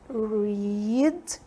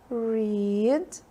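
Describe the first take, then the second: No difference in how they are said.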